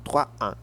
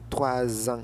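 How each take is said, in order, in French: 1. Trois et ans se disent sans liaison. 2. Trois se lie à ans avec un son [z]. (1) "et non" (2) "faites la liaison"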